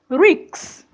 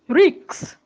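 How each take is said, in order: First: The k sound comes before the s. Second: The k sound comes before the s.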